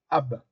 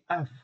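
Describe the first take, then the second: First: The word ends with a b sound. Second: The word ends with a v sound. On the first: The speaker calls it wrong. "ils ne disent pas Ab pour dire père" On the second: The speaker calls it right. "Ils disent Av"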